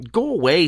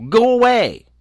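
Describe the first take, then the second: First: Higher-pitched but moderate dismissal; insistent refusal. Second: Loud, very high cry of refusal; frightened outburst. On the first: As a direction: shoo him off, raised pitch without shouting. Girl repeats her refusal, less alarmed. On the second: Frightened girl drives gnome away. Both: A narrator's reading.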